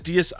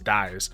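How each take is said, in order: First: It is said with Latin pronunciation, two syllables. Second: It is said like the English verb 'dies'. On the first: The speaker calls it right. "But it's Dies Irae, which is actually based on Latin" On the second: The speaker calls it wrong. "a lot of basic Yu-Gi-Oh players are going to assume it says dies"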